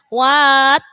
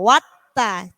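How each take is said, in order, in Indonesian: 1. Vokal pertama dibaca panjang. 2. Vokal pertama pendek. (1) "Jadi bukan what" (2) "Jadi tidak dibaca panjang, langsung wattaqo"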